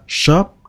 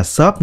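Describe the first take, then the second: First: "shop" with a clear sh and short o; correct sh sound. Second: "shop" said the mistaken Vietnamese way, with a flat s; wrong shop. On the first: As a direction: model the right "shop". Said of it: "Các bạn đọc là shop". ("shop" đọc đúng, âm sh rõ) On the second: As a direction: show the common wrong "shop". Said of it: "không phải là shop nha". ("shop" đọc sai kiểu Việt) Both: Shown as a demonstration.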